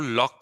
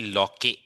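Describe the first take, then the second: First: The name ends on the k, one syllable. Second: The name ends with an extra vowel, two syllables. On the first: The speaker calls it right. "हम लोग लॉक को लॉक pronounce करते हैं" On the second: The speaker calls it wrong. "ना कि लॉके"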